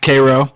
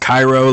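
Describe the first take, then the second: First: It is said unlike the Egyptian city's name. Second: It is said like the Egyptian city's name. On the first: The speaker calls it right. "it is pronounced Cairo" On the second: The speaker calls it wrong. "it's not pronounced Cairo like the, uh, the city in Egypt"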